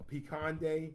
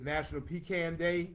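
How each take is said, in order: First: Pecan ending like 'con'; pee-KAHN pronunciation. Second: Pecan rhyming its end with 'man'; pee-CAN pronunciation. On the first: Host gives the day's other name, pee-KAHN version. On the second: Host announces the national day, pee-CAN version. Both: Shown as a demonstration. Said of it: "I cannot figure it out".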